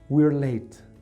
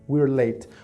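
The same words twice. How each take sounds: No difference in how they are said.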